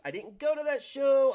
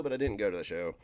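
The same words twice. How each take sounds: First: High, loud sing-song whine; mock lament. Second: Said in the usual way. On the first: Streamer mock-wailing about missing the wrestling show, high and loud. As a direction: wail it like a big loss.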